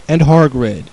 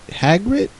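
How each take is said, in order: First: Hagrid said HAR-grid, stress on the first syllable, long ar; Hagrid pronounced HAR-grid. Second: Hagrid said HAG-rid with a short a, rising like a question; Hagrid pronounced HAG-rid. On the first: Reader sounding out the fanfic's Hagrid as HAR-grid. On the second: Reader checking the other Hagrid as a puzzled HAG-rid. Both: Shown as a demonstration. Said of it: "Hagrid and Hagrid have to be two different people".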